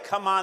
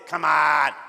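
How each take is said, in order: First: It is said in a plain, ordinary voice. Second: It is said in a rough, guttural voice. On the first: "they don't say come on" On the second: "Kind of guttural"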